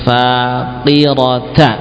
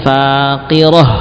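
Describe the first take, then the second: First: The word ends with a t sound and vowel. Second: The word ends with a final h sound. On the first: The word is read without stopping on it. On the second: The reader stops on this word.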